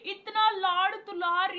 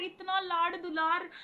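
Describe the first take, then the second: First: "इतना लाड़ दुलार" stretched slowly, higher and much louder, with "इतना" pushed hardest; gushing emphasis. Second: "इतना लाड़ दुलार" repeated slowly with only light stress on "लाड़"; softer echo. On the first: Telling viewers how much love the baba gave, in slow, loud, awed emphasis. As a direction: linger on "इतना" in an awed burst. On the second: Echoing to viewers the love she was given, slowly and softer. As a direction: let "इतना लाड़ दुलार" settle back down gently. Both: Real, not acted. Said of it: "repeated with stronger emphasis".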